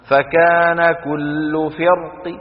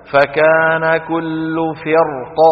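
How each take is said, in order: First: Slow chant, فرق ending in a faint, partial kasra; rawm stop. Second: Slow chanted recitation, heavy ر in فرق, ق without vowel; heavy-ra stop. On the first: Teacher shows students what rawm is, rawm stop. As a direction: recite drawn out, give ق of فرق a reduced "i". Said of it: "هكذا الروم". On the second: Teacher models the only valid sukun reading, heavy-ra stop. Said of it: "مفخمة قولا واحدا". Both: Shown as a demonstration.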